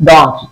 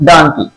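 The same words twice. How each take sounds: First: ডংকি with a rounded "o" and ng, as "dong-ki"; the right "dong-ki"; ডংকি pronounced "dong-ki"; correct pronunciation. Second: ডানকি with an open "a", as "dan-ki"; the common wrong "dan-ki" for donkey; ডানকি pronounced "dan-ki"; wrong pronunciation. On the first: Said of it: "কিন্তু এর উচ্চারণ হবে". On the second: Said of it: "আমরা এটাকে ডানকি বলি". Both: Shown as a demonstration.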